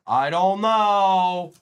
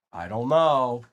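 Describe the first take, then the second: First: Loud, very slow, stretched-out words; exaggerated drawl. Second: Said in the usual way. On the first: Streamer repeating himself to the viewers, exaggerated drawl. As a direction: drag out the last word loudly.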